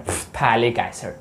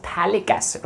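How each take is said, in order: First: "phthalic" with a puffed f sound before the th; mispronounced PH. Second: "phthalic" said as "thalic", starting straight on th; silent PH. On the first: Teacher mimicking how some people pronounce it, "phthalic" with the PH sounded. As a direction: sound out the silent PH in "phthalic", low and slow. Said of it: "कुछ लोग ऐसे pronounce करें". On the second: Teacher correcting the pronunciation for students, "phthalic" with PH silent. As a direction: drop the PH in "phthalic", softer and slow. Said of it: "पीएच silent है". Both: Shown as a demonstration.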